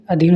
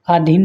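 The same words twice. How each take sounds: First: अधीन said a-dheen; correct short vowel. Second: अधीन said aa-dheen; wrong long vowel. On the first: Teacher corrects students, short first vowel. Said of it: "होता है". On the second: Teacher shows students the mistake, long first vowel. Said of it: "नहीं". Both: Shown as a demonstration.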